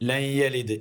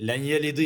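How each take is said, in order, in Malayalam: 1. ആദ്യ വാക്ക് n ശബ്ദത്തിൽ അവസാനിക്കുന്നു. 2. ആദ്യ വാക്ക് n ശബ്ദത്തിൽ അവസാനിക്കുന്നു.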